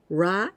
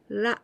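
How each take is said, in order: First: The consonant is a strong English-style R. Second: The consonant is a light tap between R and L. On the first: The speaker calls it wrong. "So this is not ra, ra. This is not like this" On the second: The speaker calls it right. "It is something between R and L"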